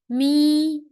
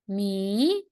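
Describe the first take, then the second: First: The pitch stays high and level. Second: The pitch rises from middle to high. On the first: "and the first tone" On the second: "and second tone"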